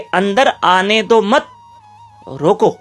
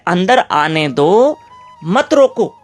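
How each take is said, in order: First: The pause comes after 'mat', before 'roko'. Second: The pause comes after 'do', before 'mat'.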